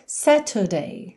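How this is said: It is said with a British accent.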